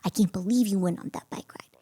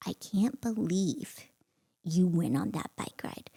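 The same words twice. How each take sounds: First: Said in the usual way. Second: Quiet, drawn out, with a heavy pause midway; slow seething disbelief. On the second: Retold or imitated. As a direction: confront a husband slowly, holding it in. Retold confronting husband, slow first take.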